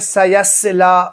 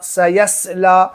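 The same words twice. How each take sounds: No difference in how they are said.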